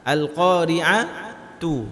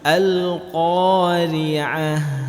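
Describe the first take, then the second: First: The word ends with a t sound and vowel. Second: The word ends with an h sound. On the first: The word is joined to what follows. "kalau kita sambung, ta marbutah itu dibaca huruf ta" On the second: The reciter stops on this word. "kalau diwaqafkan menjadi hak besar"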